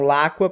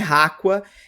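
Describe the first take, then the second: First: The name begins with an L sound. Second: The name begins with an R sound. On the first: "eles pronunciam Laqua por conta do momento Cebolinha R L" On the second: "é Raqua"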